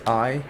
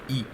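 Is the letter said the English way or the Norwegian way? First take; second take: English; Norwegian. First: The letter is said with its English name. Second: The letter is said with its Norwegian name.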